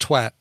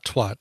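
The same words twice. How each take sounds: First: The word has the Irish pronunciation. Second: The word has the American pronunciation. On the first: "In Ireland, it's pronounced twat" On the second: "not twat"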